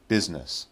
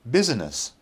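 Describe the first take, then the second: First: It is said with two syllables. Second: It is said with three syllables.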